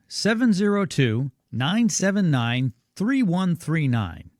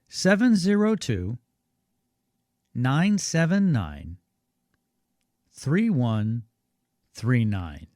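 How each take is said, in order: First: The number is read at normal speed. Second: The number is read more slowly.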